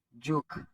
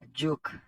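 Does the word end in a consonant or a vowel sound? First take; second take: consonant; consonant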